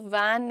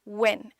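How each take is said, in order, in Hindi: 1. यह एक खुले स्वर के साथ बोला जाता है, जैसे 'van'। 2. यह एक छोटे, नरम स्वर के साथ बोला जाता है, 'wen'। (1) "सो वैन नहीं" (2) "वेन। जेंटल रखेंगे, शॉर्ट स्ट्रेच देंगे"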